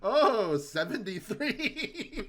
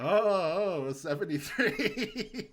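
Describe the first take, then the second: First: Loud, high and slow monster gloat. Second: Loud, high, slow gloat; quoting the monster at game night. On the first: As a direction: stretch seventy-three out like a gloating monster. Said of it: "the monster rolls". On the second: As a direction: draw out seventy-three to taunt a friend. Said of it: "I'll go". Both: Retold or imitated.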